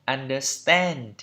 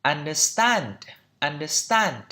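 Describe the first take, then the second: First: Understand with the A in "stand" leaning toward E; stressed "stend"-like ending on understand; American pronunciation. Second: Understand with an open British A in "stand"; open-vowelled final syllable in understand; British pronunciation. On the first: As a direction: say understand the American way, raised final vowel. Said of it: "Còn trong anh Mỹ là". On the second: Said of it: "trong anh Anh nó là". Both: Shown as a demonstration.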